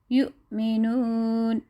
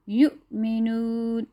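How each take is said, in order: First: یؤمنون drawn out slowly, hamza cut with a throat catch; slow, clear jolt on the ؤ of یؤمنون; glottal stop in یؤمنون. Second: یؤمنون said slowly with a catch in the throat on the ؤ; glottal stop in یؤمنون. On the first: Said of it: "جھٹکے کی آواز سے پڑھتے ہیں". (یؤمنون کو آہستہ، جھٹکے کے ساتھ) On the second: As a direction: stop the breath briefly at یؤ then go on. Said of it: "جھٹکے کی آواز کے ساتھ". (یؤمنون میں ؤ پر جھٹکا دیں) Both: Shown as a demonstration.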